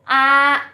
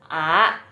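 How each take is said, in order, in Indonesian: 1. Diucapkan dengan nada pertama. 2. Diucapkan dengan nada kedua. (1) "kalau satu" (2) "Yang kedua bacanya A"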